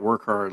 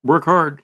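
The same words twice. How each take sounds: First: Said in the usual way. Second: Higher, louder stern dad; dad's advice. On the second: Retold or imitated. Dad lecturing his son, firm stern command. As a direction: bark it like a father handing down advice. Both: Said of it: "My dad used to tell me that".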